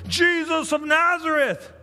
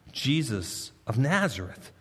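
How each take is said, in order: First: The crowd yelling his name; mob shouting. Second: Said in the usual way. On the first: Retold or imitated. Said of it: "they're shouting". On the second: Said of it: "They answered".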